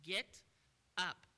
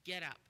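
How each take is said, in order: First: Loud, firm order; strong command. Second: Firm, punchy order; direct command. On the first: Shown as a demonstration. Preacher commanding the sick man, loud and firm. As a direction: bark it as a command. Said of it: "in a very strong command". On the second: Acted. Jesus ordering the invalid man to rise, firm. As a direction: say it straight and firm. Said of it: "Jesus told him directly".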